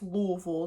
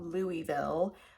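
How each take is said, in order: First: The name is said the local way. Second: The name is said the outsider way. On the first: The speaker calls it right. "Yes, Louisville" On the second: The speaker calls it wrong. "not Louisville"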